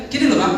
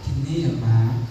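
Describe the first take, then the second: First: Said in the usual way. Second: Much lower and slow, put-on softness; forced gentle voice. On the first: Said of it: "Kan enggak banget gitu loh". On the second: Shown as a demonstration. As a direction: say it like wearing a mask of politeness. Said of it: "Harusnya harus pakai topeng".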